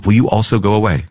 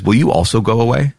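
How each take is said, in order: First: Falling, settled take of the line; sober question. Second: Rising, questioning take of the line; Jesus asking his friends, rising plea; pleading question. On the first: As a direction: ask it again, letting it drop. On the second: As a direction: ask it hopefully, lifting at the end. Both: Acted. Jesus asks the twelve.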